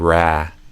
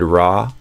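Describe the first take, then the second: First: The vowel is the 'a' of 'bad'. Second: The vowel is an open 'ah' sound. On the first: The speaker calls it right. "I would do ra, ah. Same sound as in like bad" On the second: The speaker calls it wrong. "you kind of did raw"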